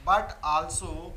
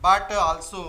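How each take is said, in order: First: "but also" drawn out very slowly and softer, with BUT stressed; slow dictation. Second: BUT stressed with a rise at the end, "but also" said slowly and clearly; dictating. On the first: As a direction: stretch "but also" out slowly, as if for note taking. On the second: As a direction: read "but also," as dictation, with a rising tune on BUT. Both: Shown as a demonstration.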